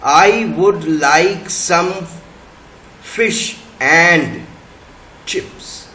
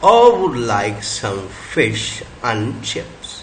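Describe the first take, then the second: First: Every small word is said in its full form. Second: The small words are said in reduced forms. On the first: The speaker calls it wrong. "In this sentence the strong forms of all the words are" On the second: The speaker calls it right. "वीक forms अगर अगर कर दिया हमने इसका"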